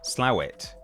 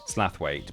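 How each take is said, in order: First: The first syllable sounds like 'slow'. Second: The first syllable sounds like 'slath'. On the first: "if you want to get really really serious about this, it's Slowet" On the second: "the I is silent apparently"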